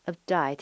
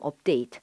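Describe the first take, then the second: First: The second syllable has an 'eye' vowel. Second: The second syllable has an 'ay' vowel. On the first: "호주 발음이 심하신 분들은 에 발음을 아로 합니다" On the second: "우리가 읽을 때 업데이트라"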